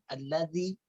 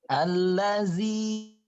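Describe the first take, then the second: First: The middle consonant is a soft 'dh' sound. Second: The middle consonant is a buzzing 'z' sound. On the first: The speaker calls it right. "ingat, za-nya, zi, zi, zi" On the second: The speaker calls it wrong. "Jangan allazi. Nah, jangan kebablas ke huruf za"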